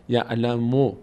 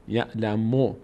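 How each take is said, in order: The two takes are said the same way.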